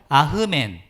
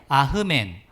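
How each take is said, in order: First: A breathy h sound follows the first vowel. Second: A breathy h sound follows the first vowel.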